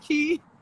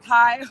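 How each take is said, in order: First: The surname rhymes with 'see'. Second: The surname rhymes with 'eye'. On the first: "or Karina Key" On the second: "not Karina Kai"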